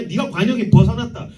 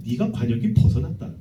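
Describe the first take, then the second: First: Said in the usual way. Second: 낮고 무겁게 꾸짖는 하나님; 위에서 내려다보듯 낮게 선고하듯; 하나님의 목소리. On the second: Acted. God rebukes humanity. (낮은 목소리로 꾸짖는 하나님)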